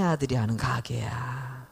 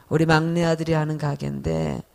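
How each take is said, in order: First: Hushed whisper, as if telling a secret; whispered grandmother. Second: Said in the usual way. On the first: Retold or imitated. Grandmother confides to the fruit seller in a whisper. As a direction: whisper it like a sneaky old grandmother. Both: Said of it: "그 할머니가 뭐라 그러냐면은요".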